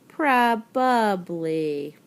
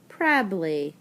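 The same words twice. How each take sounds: First: The word is said with all three syllables. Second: The word is said with a syllable dropped. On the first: The speaker calls it right. "but really the word is probably" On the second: The speaker calls it wrong. "people pronounce it like this word is spelled"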